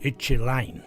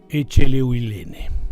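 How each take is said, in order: First: The surname is said with syllables dropped. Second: The surname is said with all its syllables. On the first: This is how people say the name today. "le dicen Echeline" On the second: This is the name as it should be pronounced. "el nombre como debe pronunciarse"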